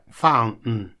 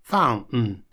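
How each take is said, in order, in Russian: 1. T выпадает, после N слышна небольшая гортанная задержка. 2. T выпадает, после N слышна небольшая гортанная задержка.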